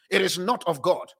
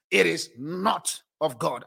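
First: Said in the usual way. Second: It is not of God dragged out, each word hit; slow it right down and lean on every word; a preacher driving the point home; slow, weighty repeat. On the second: Shown as a demonstration.

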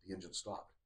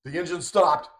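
First: Very quiet, low retold reaction; hushed realization. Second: Raised, higher retold alarm; mock freaking out. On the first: Retelling a man noticing the engine has stopped, hushed realization. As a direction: say it under your voice, pitched down. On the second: Retelling a man who starts freaking out, mild alarm. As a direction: lift the voice into mild mock panic. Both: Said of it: "he starts freaking out".

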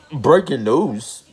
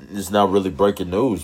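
First: High, slow, dramatic breaking-news call; mock news announcement. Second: Said in the usual way. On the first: Host jokingly announcing sports news to listeners, mock newscaster. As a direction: announce it like a newscaster, tongue in cheek.

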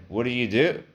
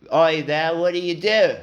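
First: Said in the usual way. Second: High, loud mock British grilling; hammed-up British salesman, pitched way up; British accent. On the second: Salesman grilling his customer, in mock British accent. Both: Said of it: "the guy I had was British".

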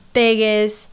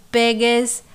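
Both takes have the same delivery.

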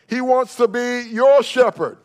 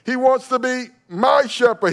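First: Your in your shepherd punched, higher and louder, slowed; stress on your. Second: My in my shepherd hit high and loud; stress on my. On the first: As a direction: preach it, landing hard on your. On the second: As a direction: drive home the word my. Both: Shown as a demonstration. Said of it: "not just a shepherd or the shepherd".

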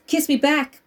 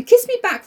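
First: Said in the usual way. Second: "Kiss me back" redone, much higher and louder with the punch on "me". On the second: Shown as a demonstration. Rereading the quote with a sharper, louder punch on "me". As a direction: fling out "Kiss me back" with "me" hit high and loud.

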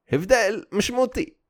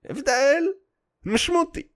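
First: Said in the usual way. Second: הבדל משמעותי said much higher; emphatic high repeat. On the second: Shown as a demonstration. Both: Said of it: "repeats it higher".

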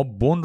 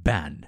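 First: Said in the usual way. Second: بن said as "ban", with a instead of o; "ban" for بن, not "bon"; altered vowel. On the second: Shown as a demonstration.

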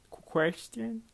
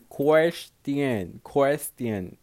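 First: "Question?" up high and rising, unsure of the word; unsure try. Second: "Question." louder, falling, settled; firm try. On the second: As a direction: land "Question." flatly with a falling end. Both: Real, not acted. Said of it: "I don't know how to fucking say this word".

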